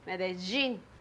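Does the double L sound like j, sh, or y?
j. The double L sounds like a j. "In Medellin and Bogota, we say J"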